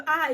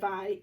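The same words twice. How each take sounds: First: Last "I" drawn out as eye; long I sound. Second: Last "I" said ih, as in pin; short I sound. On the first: Teacher showing first graders the long sound, long I. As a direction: hold "I" as the vowel's own name, eye. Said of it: "long sound of I is gonna go". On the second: Teacher showing first graders the short sound, short I. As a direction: say "I" as a held ih. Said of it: "short sound of I is gonna go". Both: Shown as a demonstration.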